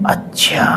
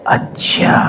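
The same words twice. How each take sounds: First: Hushed whisper of a voice from far off; whispered divine voice. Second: Breathy hushed whisper of a distant voice; whispered divine voice. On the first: Narrator re-imitates the voice he heard, faint whisper. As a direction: whisper it again, even softer. Repeating God's voice heard in class. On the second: Narrator recalls God's voice in class, soft whisper. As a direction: whisper it like a voice heard inside the ears. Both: Retold or imitated.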